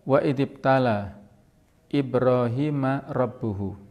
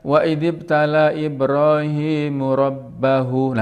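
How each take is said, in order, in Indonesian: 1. Ibrahim diakhiri dengan 'a', kata terakhir dengan 'u'. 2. Ibrahim diakhiri dengan 'u', kata terakhir dengan 'a'. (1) "Jadi Rabbuhu harus dibaca dhamma di sini" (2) "nah bahaya ini ya"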